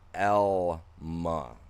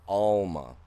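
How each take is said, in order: First: The name begins with an 'el' sound. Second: The name begins with an 'all' sound. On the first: The speaker calls it right. "it's pronounced Elma, an E L, an L sound" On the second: The speaker calls it wrong. "not Alma. Two L's make an all sound"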